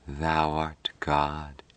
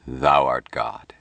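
First: Very slow, soft and entranced; heavy drugged whisper. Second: Low, slow, assured declaration; soft certainty. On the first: Patricia echoes Mike in a trance, heavy hushed murmur. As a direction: murmur it heavily, drawn right out as if drugged. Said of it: "Patricia whispered, in a voice as heavy as if drugged". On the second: Mike to Patricia as a solemn truth, softly certain. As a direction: state it slowly and low, quietly certain. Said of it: "Mike say with soft certainty". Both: A narrator's reading.

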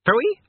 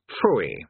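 First: Very high, louder rising question; incredulous echo. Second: Low, falling, airy pooh-pooh; expansive dismissal. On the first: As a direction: echo it in startled disbelief. King echoes it in disbelief. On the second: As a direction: wave it away, falling in pitch. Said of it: "said Vasnego expansively". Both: A narrator's reading.

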